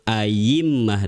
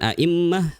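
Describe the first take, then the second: First: The second consonant is a y sound. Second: The second consonant is a glottal stop. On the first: "boleh juga disebut ayimmah dengan iya" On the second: "huruf hamzah yang kedua dalam lafadz a'immah"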